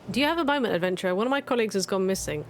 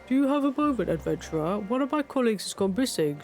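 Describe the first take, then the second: First: It is read in the speaker's normal voice. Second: It is read in a put-on Matanga voice.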